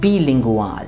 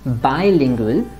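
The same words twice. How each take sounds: First: It is pronounced with German sounds. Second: It is pronounced with English sounds. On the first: "but in German, it is going to be bilingual" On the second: "In English, it will be bilingual"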